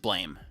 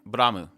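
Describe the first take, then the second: First: It is one syllable, said the English way. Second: It has two syllables, with a Japanese r. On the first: The speaker calls it wrong. "the you know English way or whatever is blame" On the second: The speaker calls it right. "how the Japanese pronounce it"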